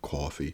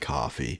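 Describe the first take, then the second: First: A milder, less exaggerated vowel. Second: A thick, over-the-top New York vowel. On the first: This is how he actually says it. "I can clearly. I just, you know, coffee" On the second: This is a cartoonish accent he does not use. "I don't say coffee"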